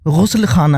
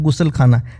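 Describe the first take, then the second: First: It begins with a throaty fricative gh. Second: It begins with a hard stop g. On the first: The speaker calls it right. "दरअसल वो गुस्ल खाना है" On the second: The speaker calls it wrong. "बहुत लोग बोलते होंगे"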